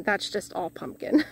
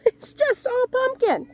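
First: Said in the usual way. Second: High, slow, laughing exclamation; laughing disbelief. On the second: Real, not acted. Gardener overrun by pumpkins, laughing in high-pitched disbelief. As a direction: repeat it in a high, amused squeal.

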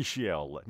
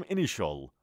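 First: Initial ended in "shi-EL"; mispronunciation. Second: Initial ended in a short "shul"; correct pronunciation. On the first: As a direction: say initial as "ini-shi-EL", drawn out. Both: Shown as a demonstration.

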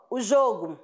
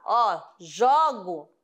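First: "jogo" with a closed o, said ZHO-goo; "jogo" with a closed o sound; noun jogo. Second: "jogo" with an open o, slowly, said ZHAW-go; "jogo" with an open o sound; verb jogo. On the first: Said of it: "eu falo jogo substantivo". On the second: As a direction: stretch "jogo" with the open ó, as in I play ball. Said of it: "vai ser o timbre diferente". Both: Shown as a demonstration.

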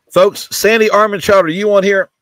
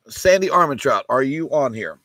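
First: Louder calling out a buyer's name. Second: Said in the usual way. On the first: Real, not acted. Host calling out for a missing buyer, loud call. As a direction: call out across the room for Sandy.

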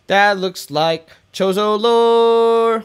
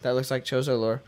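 First: Higher, louder, slow delight on "lore"; excited drawn-out discovery. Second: Said in the usual way. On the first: Real, not acted. Gamer spotting ancient lore, slow, loud, thrilled. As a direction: stretch it out like finding treasure.

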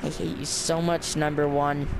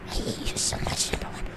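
First: Said in the usual way. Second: Breathy whispered threat, playful; hushed mock-menacing whisper; eerie whisper. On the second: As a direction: whisper it like a creepy demon. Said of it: "Stop with the demon voice".

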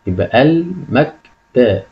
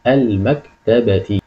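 First: Slowly sounding out the word; slow syllable reading. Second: المكتبة read very slowly with every syllable drawn out; slow full reading. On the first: Teacher sounding out a word slowly for pupils. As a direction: read it syllable by syllable. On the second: Teacher reading the whole word slowly for pupils. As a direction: draw out المكتبة for the class. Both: Shown as a demonstration.

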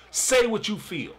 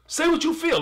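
First: Said in the usual way. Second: Much higher repeat with the weight on "what"; emphatic repeat. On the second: Shown as a demonstration. Host urging Cody to speak, emphatic higher repeat. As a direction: lift "what" up high and lean on it.

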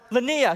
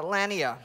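First: "Lanier" stressed on the last syllable, luh-NEER; "Lanier" corrected to luh-NEER, last syllable stressed. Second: "Lanier" stressed on the first syllable, LAN-yer; "Lanier" mispronounced as LAN-yer, first syllable stressed; wrong stress. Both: Real, not acted. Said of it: "I put the emphasis on the wrong syllable".

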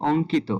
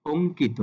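First: "অঙ্কিত" with open অ first; ভুল উচ্চারণ. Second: "অঙ্কিত" with closed ও first; সঠিক উচ্চারণ. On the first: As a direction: begin "অঙ্কিত" on aw, not o. ("অঙ্কিত"-র শুরুতে খোলা অ) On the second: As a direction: begin "অঙ্কিত" on a rounded o. ("অঙ্কিত"-র শুরুতে ও ধ্বনি) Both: Shown as a demonstration. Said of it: "এটার উচ্চারণ হবে".

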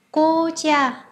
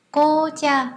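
The two takes are said the same way.

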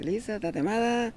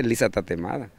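First: Pregón agudo y alargado; pregón callejero. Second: Said in the usual way. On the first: Shown as a demonstration. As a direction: vocea agudo, alargando la última vocal como vendedor ambulante. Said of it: "Se, se, se grita". (pregón de Tuxpan, agudo y alargado) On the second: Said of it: "allá se dice lisa tatemada".

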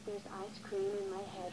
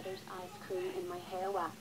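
First: Tearful whimper, slightly hushed; upset doll crying over her hair; crying over ice cream. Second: Tearful repeat, slightly hushed; upset doll repeating her complaint; crying over ice cream. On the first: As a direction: whine it out near tears, softly. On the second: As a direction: say it again, still near tears. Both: Acted. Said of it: "why are you crying".

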